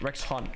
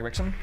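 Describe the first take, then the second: First: The name is said slowly as two separate parts. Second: The name is said fast, run together into one. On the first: "It's Rex Hun" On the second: "it's pronounced like Rexon if you say it fast"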